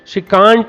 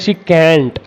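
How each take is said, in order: First: Can't has a long open vowel, as in father. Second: Can't has a short front vowel, as in cat. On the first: "दोनों pronounce pronunciation सही है" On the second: "आप इसको कांट पढ़े कैंट पढ़े"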